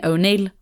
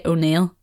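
First: O'Neill said the usual surname way; expected pronunciation. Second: O'Neill with the vowel one would never use; unlikely pronunciation. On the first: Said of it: "that would have been O'Neill". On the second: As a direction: say O'Neill the odd way, with a changed vowel. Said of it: "you would never say O'Neill". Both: Shown as a demonstration.

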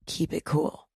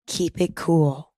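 First: A calm hush to show composure; lowered cool voice. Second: Said in the usual way. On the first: Shown as a demonstration. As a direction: keep it cool, much softer and low. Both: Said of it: "You can even lower your voice like this".

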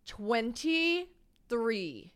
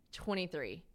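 First: Very slow TWENTY-THREE, broken into pieces; drawn-out disbelief. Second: Said in the usual way. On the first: Real, not acted. Woman digesting guest's real age, "Twenty-three" drawn out in disbelief. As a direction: stretch out "Twenty-three" syllable by syllable.

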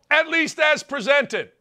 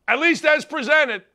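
Both takes have the same delivery.

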